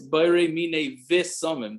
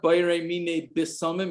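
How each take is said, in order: First: The last word begins with a V sound. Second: The last word begins with a B sound. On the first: The speaker calls it right. "it's Bayrei Mine Visamim" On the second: The speaker calls it wrong. "it's not Bayrei Mine Bisamim"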